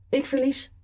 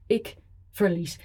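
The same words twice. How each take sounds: First: Higher, pleading ik verlies. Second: Said in the usual way. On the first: Acted. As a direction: push ik verlies up in a begging whine. Repeated admission of defeat.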